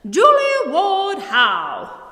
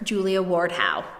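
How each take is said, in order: First: The name is said with a feisty, proud flair. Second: The name is said in a plain, neutral way. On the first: The speaker calls it right. "pretend that you are a feisty writer ... proper Bostonian lady ... You've got to say it like this" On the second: The speaker calls it wrong. "I said her name all wrong"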